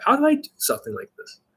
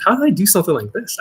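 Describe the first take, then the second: First: Very high, lilting playful question; happy, carefree vibe. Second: Higher, playful question at normal volume; self-amused. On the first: Dating coach shows happy, fun vibe, carefree. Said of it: "happy, fun, carefree, positive vibe". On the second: Dating coach demonstrates self-amusement, playfully self-amused. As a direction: amuse yourself with a lifted, swinging pitch. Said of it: "like, even self-amusement". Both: Shown as a demonstration.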